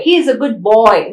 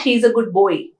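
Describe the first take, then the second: First: Put-on "boy" said with a clean oi glide; "He is a good boy" as the model sentence; correct boy. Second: Put-on "boy" said with the mistaken vowel, quickly; "he is a good boy" as the rejected version; wrong boy. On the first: Teacher giving students the right sentence. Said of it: "not, not he is a good boy". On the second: Teacher showing students the common error. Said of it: "not, not". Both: Shown as a demonstration.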